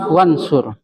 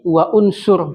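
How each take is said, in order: First: The vowel is dropped and the words join. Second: The vowel after 'wa' is kept separately. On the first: The speaker calls it right. "tetapi wansur" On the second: The speaker calls it wrong. "Tidak lagi wa unsur"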